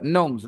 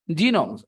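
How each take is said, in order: First: The g at the start is silent. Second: The g at the start is sounded. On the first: The speaker calls it right. "G is simply silent" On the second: The speaker calls it wrong. "I used to pronounce it genomes"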